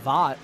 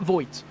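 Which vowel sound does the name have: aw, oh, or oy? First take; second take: aw; oy. First: The vowel sounds like 'aw' as in bought. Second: The vowel sounds like 'oy' as in boy. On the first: "I was thinking for a moment it was Vought, like the boys" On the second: "not Voigt"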